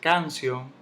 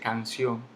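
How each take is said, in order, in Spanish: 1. El acento está en la primera sílaba. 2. El acento está en la última sílaba. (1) "no se dice canción" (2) "se dice canción. Se lleva su tilde en la O"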